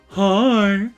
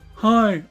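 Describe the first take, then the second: First: It is said in a flirty, coy way. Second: It is said in a plain, neutral way.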